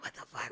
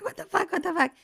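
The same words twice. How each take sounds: First: Low stunned murmur; hushed panic. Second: High, loud panicked outburst. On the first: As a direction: say it under your breath in shock. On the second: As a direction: blurt it out in rising panic. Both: Retold or imitated. Mom panicking as baby turns purple.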